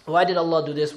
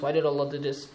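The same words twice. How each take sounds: First: Said in the usual way. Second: The question dropped much softer; fading, almost to himself. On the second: Shown as a demonstration. Believers asking themselves, fading to soft. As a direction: let the why die away quietly. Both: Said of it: "keep asking themselves the question".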